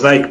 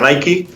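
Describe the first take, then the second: First: It is pronounced the way Spanish speakers say it. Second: It is pronounced the way American speakers say it. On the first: This is how it is said locally. "aquí decimos Nike" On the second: This is how it is said in its home country. "en Estados Unidos se pronuncia Nike"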